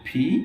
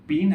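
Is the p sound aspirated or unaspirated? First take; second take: aspirated; unaspirated. First: The p is said with a puff of air. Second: The p is said without a puff of air. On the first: The speaker calls it right. "আমরা বলবো ফি" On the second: The speaker calls it wrong. "পি না বলে"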